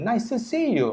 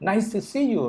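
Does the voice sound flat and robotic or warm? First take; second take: warm; warm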